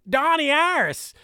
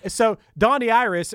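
First: It is said in a Pittsburgh accent. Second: It is said in a plain accent.

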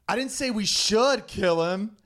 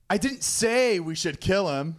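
First: The stress is on the word 'should'. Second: The stress is on the word 'say'.

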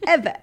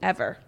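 First: It is said with lots of energy. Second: It is said flatly, with little energy.

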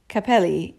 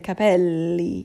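First: The L sound is short, not held. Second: The L sound is held longer. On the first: The speaker calls it wrong. "So you don't say capelli" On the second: The speaker calls it right. "You dwell on that L. You'll hold it longer"

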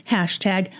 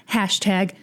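Both takes have the same delivery.

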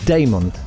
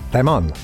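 First: The name is said the English way. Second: The name is said the Spanish way. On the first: The speaker calls it right. "that's possibly the way I say it" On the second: The speaker calls it wrong. "it sounds like it's Spanish"

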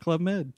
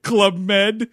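First: It is said in a casual, offhand tone. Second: It is said in a sarcastic tone. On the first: The trip is treated as an ordinary luxury. "or the richer folks" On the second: The trip is mocked as unimpressive. "Like really like sarcastic"

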